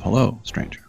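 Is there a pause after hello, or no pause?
pause. It is said as a greeting, pausing after hello.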